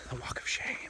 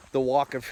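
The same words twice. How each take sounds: First: Breathy whisper of a joke. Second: Said in the usual way. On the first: Real, not acted. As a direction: whisper it like a guilty secret. Joke punchline dropped to whisper.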